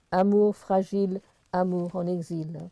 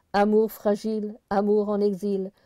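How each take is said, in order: Both takes have the same delivery.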